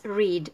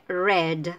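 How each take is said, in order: First: "read" said like "reed" with a long ee; present-tense read. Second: "red" said with a short e, like the colour; past-tense read. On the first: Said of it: "en presente o infinitivo es read". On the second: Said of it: "en pasado se lee red". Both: Shown as a demonstration.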